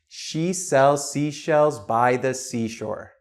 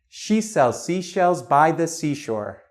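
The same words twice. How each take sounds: First: It is said at a slower pace. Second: It is said at a fast pace.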